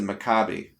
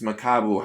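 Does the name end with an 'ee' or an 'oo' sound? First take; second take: ee; oo. First: The name ends with an 'ee' vowel sound. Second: The name ends with an 'oo' vowel sound. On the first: The speaker calls it wrong. "How the hell would you pronounce it Maccabi? There's no I in there" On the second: The speaker calls it right. "It's Makabu"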